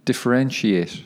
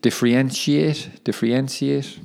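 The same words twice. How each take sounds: First: "Differentiate" with a clean "sh" in "-entiate"; successful careful attempt. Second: "differentiate" stumbled over, with a slurred "-entsiate" ending; tongue-tied attempt. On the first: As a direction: get through "Differentiate" cleanly, every syllable in place. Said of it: "I think I got it". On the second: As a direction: trip over "differentiate", trying it twice. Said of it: "Tricky word to say that". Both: Real, not acted.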